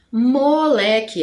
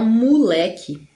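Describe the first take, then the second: First: Moleque said slowly with a clear o; careful moleque, mo-le-que; written-form moleque. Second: Moleque said as mulek, o relaxed to u; casual moleque with u sound; spoken moleque. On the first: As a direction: spell out moleque with its o. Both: Shown as a demonstration. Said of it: "a gente fala moleque".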